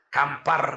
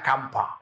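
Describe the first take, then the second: First: The word ends with a clear r sound. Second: The word ends without any r sound.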